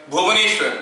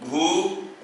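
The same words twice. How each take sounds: First: Said in the usual way. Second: "Bhubaneswar" in five spaced-out sounds; syllable by syllable. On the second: Shown as a demonstration. Teacher asking students to count syllables, "Bhubaneswar" syllable by syllable. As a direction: break "Bhubaneswar" into bhu, ba, ne, shwa, ra with pauses. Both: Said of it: "इसमें मैं कितना तो syllables".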